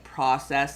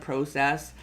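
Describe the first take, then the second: First: The word is said with an American pronunciation. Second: The word is said with a Canadian pronunciation. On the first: "the American accent is starting to creep more into younger Canadians speaking. So some of them more are like saying process" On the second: "instead of process"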